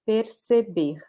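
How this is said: The R is said the São Paulo way. "like the state of São Paulo, they will pronounce it mostly like this"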